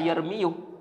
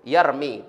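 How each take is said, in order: First: The word ends with an added 'yu' syllable. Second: The word ends after the syllable 'mi'. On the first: The speaker calls it wrong. "tidak boleh kita baca yarmiyu" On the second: The speaker calls it right. "Yarmi tidak boleh kita baca"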